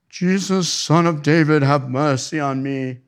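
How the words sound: It is said in a pious British voice.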